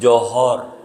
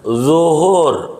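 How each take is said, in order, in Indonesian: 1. Kata ini dimulai dengan bunyi j. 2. Kata ini dimulai dengan bunyi z. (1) "Dia johor" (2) "zo, bukan jim"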